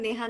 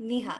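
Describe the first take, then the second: First: The first vowel sounds like 'e' in 'neigh'. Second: The first vowel sounds like 'i' in 'knee'. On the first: The speaker calls it wrong. "আমার নাম নেহা না" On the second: The speaker calls it right. "আমার নাম নিহা"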